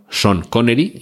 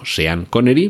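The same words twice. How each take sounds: First: The first name sounds like 'Shawn'. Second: The first name sounds like 'Se-an'. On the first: The speaker calls it right. "decimos Sean Connery" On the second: The speaker calls it wrong. "y no Sean Connery"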